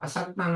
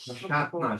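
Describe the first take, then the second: First: The middle consonant is a plain 's' sound. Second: The middle consonant is an 'sh' sound. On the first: The speaker calls it wrong. "અસાતના નથી" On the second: The speaker calls it right. "અશાતના છે. શિવમનો શ છે"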